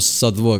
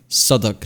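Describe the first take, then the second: First: The w in the middle is sounded. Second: The w in the middle is silent. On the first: The speaker calls it wrong. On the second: The speaker calls it right.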